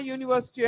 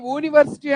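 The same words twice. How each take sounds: First: Said in the usual way. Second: యూనివర్సిటీ begun with a pure "oo", no y-glide; యూనివర్సిటీ mispronounced with "oo" for "yoo"; wrong vowel onset. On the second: Shown as a demonstration. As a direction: say యూనివర్సిటీ as "ooniversity". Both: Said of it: "యూనివర్సిటీ అంటాం".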